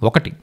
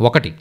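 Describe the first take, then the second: The two takes are said the same way.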